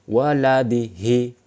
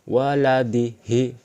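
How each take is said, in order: Both takes have the same delivery.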